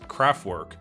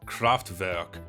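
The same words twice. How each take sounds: First: The name is pronounced the English way. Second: The name is pronounced the German way.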